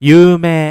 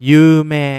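First: The ending is said as one long vowel, 'mee'. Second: The same.

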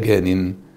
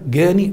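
First: The word ends in an n sound. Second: The word ends in a long ee sound. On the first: The speaker calls it right. "يبقى جان" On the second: The speaker calls it wrong. "لا غلط يا أحباب"

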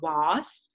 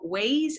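First: It is said with a British vowel. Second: It is said with an American vowel. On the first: "instead of was" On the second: "or ways"

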